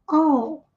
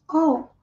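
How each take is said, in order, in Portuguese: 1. A palavra começa com um som de 'aw' reduzido. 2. A palavra começa com um som de 'aw' reduzido.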